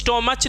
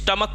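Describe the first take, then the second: First: The word ends with a ch sound. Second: The word ends with a k sound. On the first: The speaker calls it wrong. "इसको हम लोग स्टोमच नहीं पढ़ते" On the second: The speaker calls it right. "स्टमक पढ़ते"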